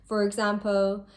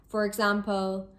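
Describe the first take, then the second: No difference in how they are said.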